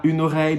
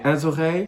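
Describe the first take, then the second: First: "une oreille" with the feminine article and no z sound; wrong way. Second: "un oreille" said un-z-oreille, with a z before the vowel; z liaison. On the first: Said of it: "on dit pas une oreille". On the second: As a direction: link "un oreille" with a z sound. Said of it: "mais un oreille". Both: Shown as a demonstration.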